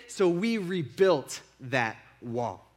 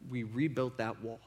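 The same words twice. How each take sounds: First: Each word of "So we rebuilt that wall" slow and deliberate, stress on we; slow defiant declaration. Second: Quiet statement. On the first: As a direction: say it in defiance, taking your time. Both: Retold or imitated. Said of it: "in defiance to them".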